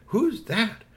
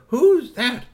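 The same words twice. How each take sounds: First: Put-on high child voice, moderate volume; curious little girl. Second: Put-on louder, high-pitched child demand; second little girl. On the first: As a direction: ask in a raised girlish pitch. First girl asks about stranger. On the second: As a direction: pipe it up loudly like a nosy kid. Other girl asks, louder. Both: A narrator's reading.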